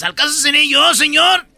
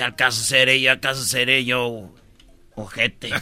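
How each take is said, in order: First: High innocent asking; innocent question. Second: Low sarcastic echo of the question; mocking reply. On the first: Acted. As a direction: play innocent, rising at the end. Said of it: "Y dice Judas".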